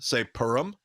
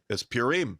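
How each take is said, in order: First: PURIM said "PUR-um", first syllable stressed; short, reduced ending on Purim; rabbis' pronunciation. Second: PURIM said "pyoo-REEM"; long "ee" ending on Purim; former pronunciation. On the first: Reporting what every Orthodox rabbi says, rabbis' pronunciation. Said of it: "every Orthodox rabbi I ever heard". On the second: Recalling his old reasoning about a Hebrew word, former pronunciation. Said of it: "I used to always say". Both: Retold or imitated.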